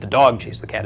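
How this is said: The word dog is stressed. It was the dog, not another animal, that chased. "is emphasizing dog"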